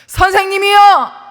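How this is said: The call is said in an urgent voice. The speaker calls it right.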